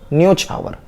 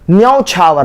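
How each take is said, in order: First: The first vowel sounds like 'o'. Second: The first vowel sounds like 'au'. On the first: The speaker calls it right. "ये न्यो होता है" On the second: The speaker calls it wrong. "न्यौ नहीं होता"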